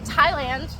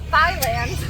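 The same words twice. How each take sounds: First: The word begins with a plain T sound. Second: The word begins with a TH sound. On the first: The speaker calls it right. "you say Thailand" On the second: The speaker calls it wrong. "instead of Thailand"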